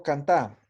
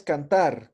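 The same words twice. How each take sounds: First: "cantar" without final r, stressed cantÁ; imperative form. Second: Said in the usual way. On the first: Shown as a demonstration. Teacher asking for the order form, "cantar" said as cantá. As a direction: end "cantar" on a stressed open á. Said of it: "cómo digo frase de orde". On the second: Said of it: "Jailinha es cantar".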